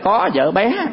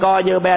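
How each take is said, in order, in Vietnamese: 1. Các âm tiết được đọc đầy đủ thanh điệu. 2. Các âm tiết được đọc không có thanh điệu.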